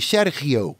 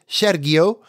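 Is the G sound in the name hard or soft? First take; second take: soft; hard. First: The G is said as a soft sound. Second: The G is said as a hard sound. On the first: The speaker calls it right. "You soften the G" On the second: The speaker calls it wrong. "not like I said"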